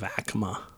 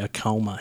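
First: The name has its standard, native pronunciation. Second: The name has the local Colorado pronunciation. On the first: The speaker calls it right. "Instead of Acoma" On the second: The speaker calls it wrong. "They also say Acoma here"

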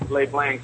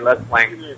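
First: The name is pronounced with a French sound. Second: The name is pronounced with an American sound. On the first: It sounds more European. "I say Les Blanc because it's more European" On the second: It is how locals say it. "In Echo Park, I think they say Les Blanc"

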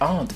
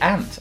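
First: The word is not said the northern English way. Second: The word is said the northern English way. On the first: "and not aunt" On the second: "We say aunt"

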